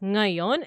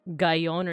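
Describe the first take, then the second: First: The word begins with an ng sound. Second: The word begins with a g sound. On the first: The speaker calls it right. "So it's ngayon" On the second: The speaker calls it wrong. "It's not pronounced like gayon"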